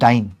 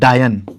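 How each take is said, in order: First: It is said as one syllable, 'dyne'. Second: It is said as two syllables, 'da-yan'. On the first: The speaker calls it right. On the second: The speaker calls it wrong. "डायन नहीं"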